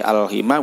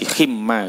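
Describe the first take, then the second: First: The m is short, after an i vowel. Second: The m is doubled, after an a vowel. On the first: "bi kasril ha'i wa fathi mimin wa qasri alifin" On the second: "wa huwa bil fathi wa tasdidi"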